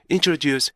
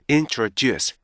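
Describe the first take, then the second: First: Learner's mistaken introduce; Korean-style introduce. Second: Native-like introduce; correct introduce. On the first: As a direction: introduce pitched higher, syllables blurred. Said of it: "이렇게 발음이 돼요". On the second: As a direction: introduce with clean separated syllables. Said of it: "이렇게 발음이 돼야 되는데 이렇게 안 되고요". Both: Shown as a demonstration.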